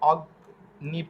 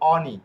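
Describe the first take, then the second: First: A hard g is heard before the n. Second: No hard g; a nasal ny sound instead. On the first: The speaker calls it wrong. "ইংরেজি ভাষার মতো যদি অগ্নি পড়ি তাহলে হবে না" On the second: The speaker calls it right. "এটা হবে অনি"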